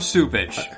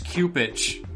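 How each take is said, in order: First: The name begins with a soft S sound. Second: The name begins with a hard K sound. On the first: This is how everybody says the name. The speaker calls it wrong. "Why would you make that a soft C?" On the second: This follows the spelling of the name. The speaker calls it right. "it's Cupich"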